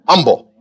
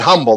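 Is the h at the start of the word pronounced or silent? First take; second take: silent; pronounced. First: The h at the start is silent. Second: The h at the start is pronounced. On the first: "that's a spiritual way of saying humble... maybe the H is silent" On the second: "They don't say it humble"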